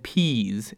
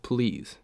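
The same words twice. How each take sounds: First: Put-on "peas" with the l dropped, babyish; baby talk. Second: Said in the usual way. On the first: Shown as a demonstration. Reading a date's baby-talk "peas" for please. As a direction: say "peas" like a toddler saying please. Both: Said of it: "peas" instead of "please".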